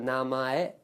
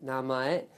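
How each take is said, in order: The two takes are said the same way.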